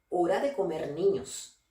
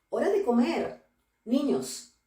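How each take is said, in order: First: It runs on without a pause before niños. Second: There is a pause before niños.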